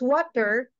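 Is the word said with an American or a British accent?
American. The word is said with an American accent. "for American"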